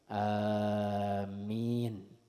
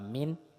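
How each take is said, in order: First: The first vowel is drawn out long. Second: The first vowel is said short. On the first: "amin tanpa tasdid di atas huruf mim" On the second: "dengan pendek tanpa mad"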